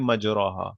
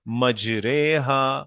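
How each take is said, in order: First: The vowel after 'majr' sounds like o. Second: The vowel after 'majr' sounds like e. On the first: The speaker calls it wrong. "इसको हम प्रोनाउंस नहीं करेंगे मजरोहा, that's not the way it is pronounced" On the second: The speaker calls it right. "और इसको प्रोनाउंस कैसे करेंगे?"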